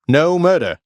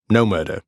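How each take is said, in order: First: High, loud insistence; frustrated shout. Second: Said in the usual way. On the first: Acted. Hero shouting at the Fury who calls him murderer. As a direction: yell it in exasperation.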